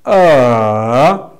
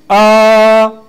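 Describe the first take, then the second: First: It is said with a falling-rising tone. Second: It is said with the first tone. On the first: "that fall and rising tone" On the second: "First, we said ah"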